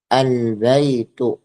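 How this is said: The article begins with an l sound. This is the standard literary form. "yang fusha kita katakan"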